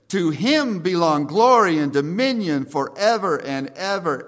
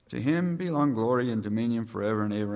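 First: It is said loudly with bursting energy. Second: It is said quietly in a routine flat way. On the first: Peter cannot hold back his praise. The speaker calls it right. "he bursts out and says" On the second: It is a routine closing before prayer. The speaker calls it wrong. "I don't think Peter wrote that with in mind, thinking"

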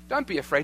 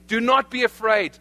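First: It sounds like a tentative, gentle suggestion. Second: It sounds like a firm, authoritative command.

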